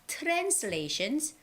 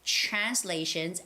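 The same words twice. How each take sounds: First: The word begins with a plain tr sound. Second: The word begins with a chr sound. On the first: The speaker calls it wrong. "it's not translations" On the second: The speaker calls it right. "it's always the C H sound again"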